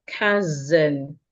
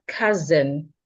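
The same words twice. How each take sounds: The two takes are said the same way.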